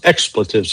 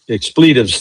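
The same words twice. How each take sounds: First: The word is said the American way. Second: The word is said the British way. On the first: "we call them expletives here" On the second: "expletives there"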